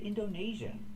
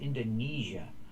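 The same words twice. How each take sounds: First: The stressed vowel is a long A sound. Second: The stressed vowel is a long E sound. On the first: The speaker calls it wrong. "The country is not pronounced like that" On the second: The speaker calls it right. "long E like green beans"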